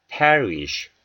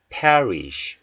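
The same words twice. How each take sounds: The two takes are said the same way.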